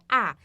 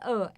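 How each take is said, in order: First: The vowel is said wide open. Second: The vowel is said closed. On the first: The speaker calls it right. "é A" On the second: The speaker calls it wrong. "não é A"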